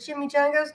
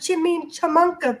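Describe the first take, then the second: First: The word is said as chimichangas. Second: The word is said as chimichamunka. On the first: The speaker calls it right. "I said" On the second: The speaker calls it wrong. "He called them chickamuncas"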